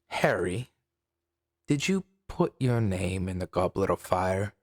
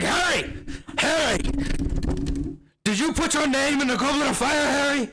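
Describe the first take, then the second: First: Dumbledore's line is said calmly. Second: Dumbledore's line is said agitatedly.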